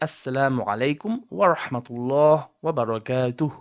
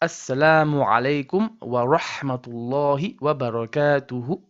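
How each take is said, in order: First: The final vowels are dropped when stopping. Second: The words keep their full final vowels.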